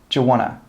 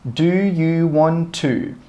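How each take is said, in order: First: The words are run together quickly as 'wanna'. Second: Every word is said separately and clearly.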